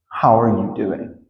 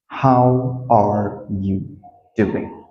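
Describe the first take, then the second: First: Said in the usual way. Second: Very slow, word by word; slow, careful teaching demo; slow model. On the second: Shown as a demonstration. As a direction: leave space between the words. Teacher models question slowly.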